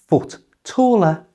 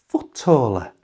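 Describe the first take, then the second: First: Both T sounds are pronounced. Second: The first T sound is left out.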